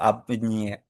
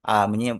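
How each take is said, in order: First: The preposition ends in a consonant before the pronoun. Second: The preposition is a single vowel before the pronoun.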